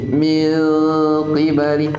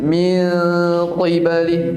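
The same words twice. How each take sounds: First: The q sound is slightly lightened. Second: The q sound is fully heavy. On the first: The speaker calls it right. "Kayak dibaca tipis" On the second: The speaker calls it wrong. "bukan min qibali, bukan qi"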